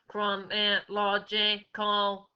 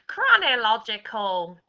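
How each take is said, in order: First: The word is said in a mechanical robot voice. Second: The word is said in a cackly witch voice. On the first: "We're going to say it in a robot's voice" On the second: "We're going to say it in a witch's voice"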